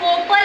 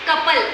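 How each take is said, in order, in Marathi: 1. पहिला स्वर 'oh' सारखा वाजतो. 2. पहिला स्वर 'uh' सारखा वाजतो. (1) "कोपल असं वाचू शकत नाही" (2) "ओचा साऊंड आपल्याला घ्यायचा आहे अ"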